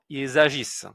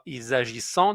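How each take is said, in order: First: The verb ends with a silent ending. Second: The verb ends with a nasal 'an' vowel. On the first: The speaker calls it right. "non, ils agissent" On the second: The speaker calls it wrong. "On ne dit pas ils agissant"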